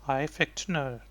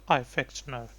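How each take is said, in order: The two takes are said the same way.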